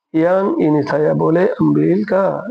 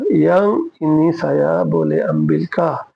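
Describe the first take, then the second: First: Each word drawn out slowly for learners; slow teaching demo. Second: Stretched almost syllable by syllable; slow it down even further for the class; very slow repeat. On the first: Teacher reading a Malay sentence to learners, very slow. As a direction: spell it out slowly to a student. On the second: Teacher repeating the Malay sentence for students, even slower. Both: Shown as a demonstration. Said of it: "বলে আমবিল কা?".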